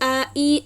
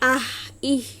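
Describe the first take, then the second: First: The vowels end cleanly with no breath. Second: The vowels end with an audible puff of breath. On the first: The speaker calls it right. "একদমই বাতাস বের হবে না" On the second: The speaker calls it wrong. "এভাবে যদি বলেন অথবা বাতাস বের করেন তাহলে কিন্তু এটা ভুল উচ্চারণ হবে"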